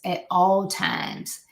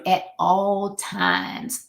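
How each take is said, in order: First: "at all times" said slowly, each word weighted; slow emphatic repeat. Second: Said in the usual way. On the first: Shown as a demonstration. Speaker stressing professionalism to the audience, slow and emphatic. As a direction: drag out "at all times" to drive it home. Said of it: "You want to exhibit professionalism".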